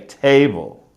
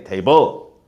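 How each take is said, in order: First: The stress falls on the usual syllable. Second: The stress falls on the unusual syllable. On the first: The speaker calls it right. "I still have to say table" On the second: The speaker calls it wrong. "I can't say table"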